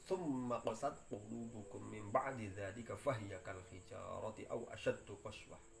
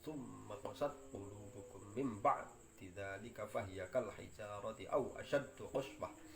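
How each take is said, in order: No difference in how they are said.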